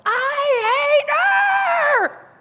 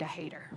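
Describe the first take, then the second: First: Long, drawn-out scream at full power. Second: Softly retelling the line; quiet recap. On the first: Grieving teen screaming at her dad. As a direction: scream it with everything. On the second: Speaker softly recalling what she screamed. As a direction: hate said low and soft, almost under the breath. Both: Retold or imitated. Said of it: "So I just screamed".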